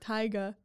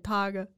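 First: The first vowel sounds like 'eye'. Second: The first vowel sounds like 'ah'. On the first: The speaker calls it wrong. "You said the I like [name]" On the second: The speaker calls it right. "You have to say Taga"

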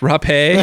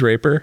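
First: The name is said with French-style sounds. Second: The name is said with plain English sounds. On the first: The speaker calls it right. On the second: The speaker calls it wrong.

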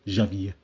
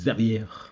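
First: The name is said with a Catalan pronunciation. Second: The name is said with a French pronunciation. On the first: "If he meets someone who's Catalan, it'd be like" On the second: "when he meets a French person, they're gonna be like"

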